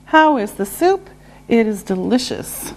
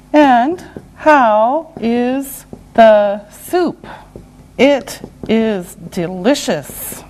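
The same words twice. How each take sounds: First: Said in the usual way. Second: Word by word with gaps; slow and deliberate. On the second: Shown as a demonstration. Teacher modelling a soup example, slow and separated. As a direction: space out every word for learners.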